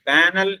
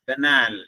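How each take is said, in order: First: The first syllable has a long 'aa' vowel. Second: The second syllable has a long 'aa' vowel. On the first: The speaker calls it wrong. "ബാനൽ എന്നല്ല" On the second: The speaker calls it right. "അതിന്റെ ഉച്ചാരണം ശ്രദ്ധിക്കുക"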